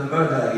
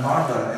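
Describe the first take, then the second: First: Said in the usual way. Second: Irish "murder" with both Rs sounded; Irish accent. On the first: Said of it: "en vez de murder". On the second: Shown as a demonstration. Another word from the Irish teachers, "murder" in Irish accent with sounded Rs. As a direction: say "murder" Irish-style, pronouncing the Rs. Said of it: "y otras palabras".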